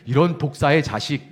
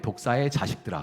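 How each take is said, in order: First: Louder, spat out like a real curse; cursing insult. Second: Solemn and grave. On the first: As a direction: swear it at someone. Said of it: "이렇게 욕할 때". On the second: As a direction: read it like stately scripture. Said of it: "근엄하게". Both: Shown as a demonstration.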